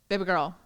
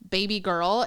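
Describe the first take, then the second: First: The phrase is said quickly, run together. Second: The phrase is said at a normal, unhurried pace.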